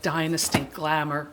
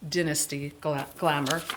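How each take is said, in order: First: It is said in an American accent. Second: It is said in a British accent.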